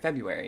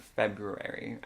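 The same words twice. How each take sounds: First: The first R sound is dropped. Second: The first R sound is pronounced. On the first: The speaker calls it right. "growing up, we always said" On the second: The speaker calls it wrong. "The first R, yeah, I don't like the way it sounds"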